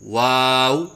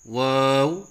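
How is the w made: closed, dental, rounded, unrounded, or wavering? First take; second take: rounded; closed. First: The w is made with rounded open lips. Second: The w is made with the mouth closed. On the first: The speaker calls it right. "सही अदायगी है" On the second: The speaker calls it wrong. "मुंह बंद करके पढ़ना"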